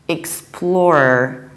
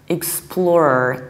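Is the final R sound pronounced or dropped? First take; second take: pronounced; pronounced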